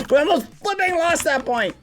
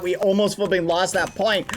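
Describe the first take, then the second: First: Much higher silly repeat; squeaky silly voice. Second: Said in the usual way. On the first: Shown as a demonstration. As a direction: squeak it out like a cartoon. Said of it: "repeated in put-on voice". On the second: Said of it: "repeat in high far voice".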